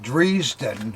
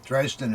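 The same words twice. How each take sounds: First: It is said in a non-American way. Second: It is said in an American way. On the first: This is how another person said the name. "Bill pronounced it Dresden" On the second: This is how people say the name in America. "Dresden is what we say in America"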